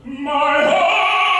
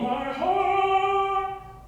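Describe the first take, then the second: First: It is said with an open, free mouth. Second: It is said with a clenched, muffled jaw.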